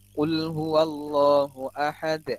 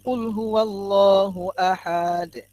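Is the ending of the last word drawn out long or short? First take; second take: short; long. First: The ending of the last word is kept short. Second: The ending of the last word is drawn out long. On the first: The speaker calls it right. "Pendek kan?" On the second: The speaker calls it wrong. "Salah kan? Enggak panjang kan di akhirnya"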